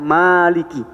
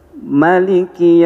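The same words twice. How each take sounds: First: The vowel after the m is long. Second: The vowel after the m is short. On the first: This follows the reading of Hafs. "dipanjangin di situ" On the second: This follows the reading of Warsh and Qalun. "dibaca pendek mimnya"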